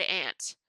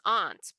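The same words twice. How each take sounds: First: "aunt" said like the insect ant; "aunt" rhyming with pant; childhood pronunciation. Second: "aunt" said with a broad ah, ahnt; "aunt" rhyming with font; correct pronunciation. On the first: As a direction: say "aunt" with a short flat A, as in ant. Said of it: "when I was little, I said". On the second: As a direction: say "aunt" with an open AH vowel. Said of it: "the correct way to say it". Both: Shown as a demonstration.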